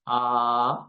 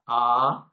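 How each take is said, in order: First: The vowel is prolonged for an extended time. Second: The vowel is held about twice as long.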